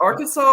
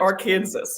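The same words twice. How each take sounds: First: Said in the usual way. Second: Arkansas said as "are-KANSAS"; mother's pronunciation. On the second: Shown as a demonstration. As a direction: rhyme the end of Arkansas with Kansas, final s sounded. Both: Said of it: "I have to always stumble".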